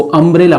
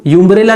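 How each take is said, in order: First: अम्ब्रेला starting with a short "uh" sound; अम्ब्रेला as uh-mbrella, not yoo-mbrella; correct pronunciation. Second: यूम्ब्रेला said with a "yoo" sound at the start; यूम्ब्रेला as the mistake, yoo-mbrella; wrong pronunciation. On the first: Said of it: "इसको अम्ब्रेला पढ़ेंगे". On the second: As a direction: open यूम्ब्रेला with "yoo", like the letter U. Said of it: "यूम्ब्रेला नहीं पढ़ेंगे". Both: Shown as a demonstration.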